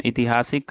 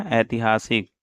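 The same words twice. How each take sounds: First: ऐतिहासिक begun with short "i"; wrong first vowel. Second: ऐतिहासिक begun with "ai"; correct ai vowel. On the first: Teacher quizzing on the word, ऐतिहासिक said as itihaasik. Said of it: "का क्या होगा". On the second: Teacher answering the quiz, ऐतिहासिक with ai at the start. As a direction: open ऐतिहासिक on an ai sound. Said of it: "ऐतिहासिक शुद्ध रूप होगा". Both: Shown as a demonstration.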